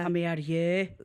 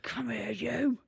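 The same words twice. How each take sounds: First: It is said plainly, without a seductive tone. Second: It is said in a seductive, sexy tone.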